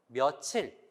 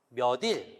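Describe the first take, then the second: First: It is said as one fused word, 며칠. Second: It is said as two parts, 몇 plus 일. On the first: The speaker calls it right. "며칠로 발음을 해요" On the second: The speaker calls it wrong. "몇 더하기 일이라면 몇 일 이렇게 발음을 하겠죠"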